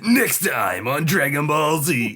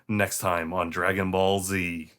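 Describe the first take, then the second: First: It is said loudly with extreme, dramatic energy. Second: It is said calmly with normal, subdued energy. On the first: "the original is like the classic" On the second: "much more subdued ... sort of normal ... not quite as extreme"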